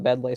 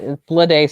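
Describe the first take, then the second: First: The name is said without an L after B. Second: The name is said with an L after B. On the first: "I've always called it Bedley" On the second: "Bleday sounds like a weird pronunciation to me"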